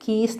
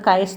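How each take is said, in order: First: It is said with one syllable, like keys. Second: It is said with two syllables, like kye-us. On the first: "കീസ് എന്നും pronounce ചെയ്യാം" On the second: "അത് കയസ് എന്ന് pronounce ചെയ്യാം"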